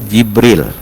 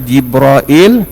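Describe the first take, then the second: First: The name is said with two syllables. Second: The name is said with three syllables. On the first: "satu Jibril" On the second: "dia boleh dibaca dengan dua, satu Jibrail"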